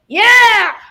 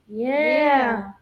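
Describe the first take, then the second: First: The word is said lively and energetic. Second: The word is said flat and monotone. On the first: The speaker has grown comfortable and confident. The speaker calls it right. "now it's like" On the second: The speaker was not yet comfortable. The speaker calls it wrong. "It's so monotone"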